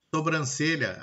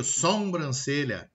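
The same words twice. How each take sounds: First: Said in the usual way. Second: "sobrancelha" slowly as "sombrancelha"; slow "sobrancelha" with an added m; nasalized vowel. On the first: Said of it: "Eu tenho a nasalização de vogais". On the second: Shown as a demonstration. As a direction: nasalize the first o of "sobrancelha": "som-brancelha". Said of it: "aí eu crio sobrancelha".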